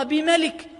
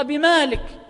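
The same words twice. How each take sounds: First: بملك with a short "ma", as "bi-MA-lik"; short vowel. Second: بمالك with a long "maa", as "bi-MAA-lik"; long alif. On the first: Teacher contrasting two readings, بملك with short vowel. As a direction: say بملك with no long alif. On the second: Teacher contrasting two readings, بمالك with long alif. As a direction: stretch the first vowel of مالك in بمالك. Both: Shown as a demonstration. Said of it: "تقرأ بملك وتقرأ بمالك".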